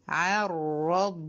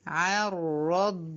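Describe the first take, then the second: Both takes have the same delivery.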